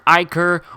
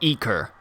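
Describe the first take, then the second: First: The first vowel sounds like 'eye'. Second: The first vowel sounds like 'ee'. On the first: The speaker calls it right. "I think it's Ichor" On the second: The speaker calls it wrong. "because Eker would have an E"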